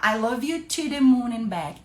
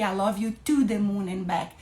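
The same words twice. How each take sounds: First: "to" reduced to a light, unstressed syllable; pronunciation comparison. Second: "to" with a full OO vowel, like "too"; pronunciation comparison. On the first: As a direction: run "to" lightly into "the moon". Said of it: "Concorda se eu falar". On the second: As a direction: give "to" its full "too" sound. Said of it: "Deu na mesma". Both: Shown as a demonstration.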